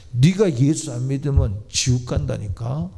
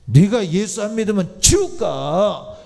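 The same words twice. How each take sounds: First: Said in the usual way. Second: 지옥 hit hard, higher, louder and slow; slow down and hammer 지옥 home; a preacher's pleading warning, the word 지옥 pressed hard; emphatic warning. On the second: Real, not acted. Preacher repeats warning twice.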